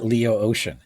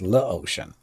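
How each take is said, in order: First: The first part has two syllables, like Leo. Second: The first part has one syllable, like French le. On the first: The speaker calls it wrong. "It's actually not Leo Ocean" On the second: The speaker calls it right. "It's L E and then Ocean, as in you know French"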